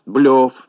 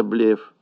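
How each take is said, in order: First: «блёф» with a yo vowel, punched louder; wrong yo vowel hit hard in «блёф»; mispronounced БЛЁФ. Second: Said in the usual way. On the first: Shown as a demonstration. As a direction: say «блёф» with yo in place of e. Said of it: "Всё это ошибки". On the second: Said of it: "вместо".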